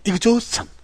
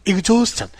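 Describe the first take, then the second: No difference in how they are said.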